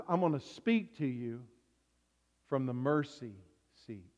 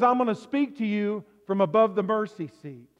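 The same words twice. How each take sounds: First: Much softer and lower, tender; a quiet, intimate whisper-close reading; soft, gentle voice of God. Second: Said in the usual way. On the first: Shown as a demonstration. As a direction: speak it gently, the opposite of booming thunder. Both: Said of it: "God doesn't say, "I'm gonna be a booming, thundering voice".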